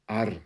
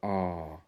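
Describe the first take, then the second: First: The R sound is hard and strong. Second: The R sound is soft and weak. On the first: "compared to R" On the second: "A very soft R"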